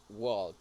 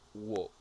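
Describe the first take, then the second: First: The L sound is pronounced in the word. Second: The L sound is silent in the word. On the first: The speaker calls it wrong. "I think I heard walk with a little sound" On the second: The speaker calls it right. "walk without L"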